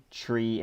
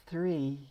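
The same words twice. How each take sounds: First: Said in the usual way. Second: THREE in a high, put-on British accent; unsure stab at British "Three"; attempted British accent. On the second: Shown as a demonstration. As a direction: try "Three" with a British TH, pitched up. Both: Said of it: "can you say tree in a British accent?".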